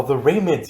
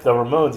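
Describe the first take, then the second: First: "[name]" said as RAY-munz, stress up front; mispronounced band name. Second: "[name]" as ruh-MOHNZ, stress on MOHNZ; correct band name. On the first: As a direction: say "[name]" with a long AY first. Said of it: "Have you heard the [name]?". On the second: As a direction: say "[name]" with a long O at the end. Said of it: "You mean the [name]?". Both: Retold or imitated.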